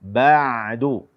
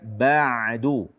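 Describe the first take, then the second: Both takes have the same delivery.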